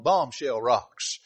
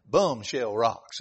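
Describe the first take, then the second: First: Said in the usual way. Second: "bum shell rocks" with bomb said as bum, slow and drawn out; southern pronunciation. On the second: Shown as a demonstration. Preacher showing how folks down south say it, slow southern bum shell. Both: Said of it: "Or to say it properly".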